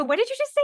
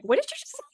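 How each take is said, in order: First: Very high, louder stunned question; astonished. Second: Very high stunned repeat; astonished. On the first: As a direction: gasp it out in disbelief. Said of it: "I go". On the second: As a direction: squeak it out again in awe. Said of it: "I'm like". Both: Retold or imitated.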